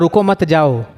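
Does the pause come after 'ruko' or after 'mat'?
after mat. There is a pause after the second word. Do not stay; go now. "मतलब रुको मत, अब रुकने की ज़रूरत नहीं है, अब भाग जाओ"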